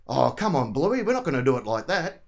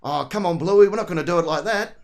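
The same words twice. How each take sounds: First: Lightly Ocker Aussie dad voice; a hint of broad Australian country dad; relaxed Aussie dad accent, lightly done. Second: Broad Aussie country dad, a touch louder; tongue shifted for a broad country Australian accent; Bandit-style Aussie dad, slightly louder; old country accent. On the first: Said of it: "a bit of an Ocker voice". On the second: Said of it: "get the old country accent come out". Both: Shown as a demonstration.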